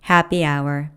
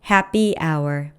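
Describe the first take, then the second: First: The second syllable of happy is weaker. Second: Both syllables of happy are stressed equally. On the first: The speaker calls it right. "b를 더 약하게 발음한 거예요" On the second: The speaker calls it wrong. "happy 모두 강세를 둔 거고요"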